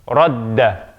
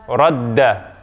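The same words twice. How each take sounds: No difference in how they are said.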